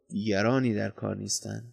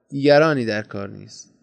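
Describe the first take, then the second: First: Low, softened restatement; quiet repetition. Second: Said in the usual way. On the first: A narrator's reading. Companion repeats his answer as they walk on, low and quiet. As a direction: repeat it softly, dropping the voice.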